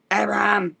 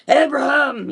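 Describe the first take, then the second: First: Said in the usual way. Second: Booming voice of God calling a name; big deep voice. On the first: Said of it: "I just imagine". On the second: Retold or imitated. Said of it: "this big, deep voice".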